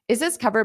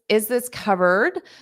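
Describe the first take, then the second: First: The phrase is said quickly. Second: The phrase is said slowly. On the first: "I'll say it fast" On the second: "I'll say it slowly"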